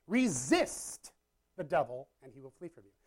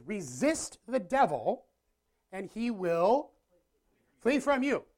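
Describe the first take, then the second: First: Said in the usual way. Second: Slow and deliberate, rising to a higher, louder flee; slow scripture emphasis. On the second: Shown as a demonstration. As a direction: proclaim the verse word by word. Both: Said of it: "The Bible says".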